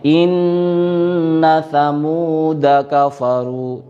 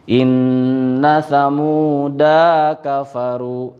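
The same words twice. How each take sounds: First: The vowel after the d is short. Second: The vowel after the d is long. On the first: The speaker calls it right. "da-nya dibaca pendek" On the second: The speaker calls it wrong. "Ini contoh yang salah"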